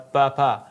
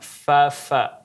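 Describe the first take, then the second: First: The consonant is a stopped p sound. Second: The consonant is a breathy f with air. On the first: The speaker calls it wrong. "bukan dibaca pa pa" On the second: The speaker calls it right. "huruf fa bersifat angin"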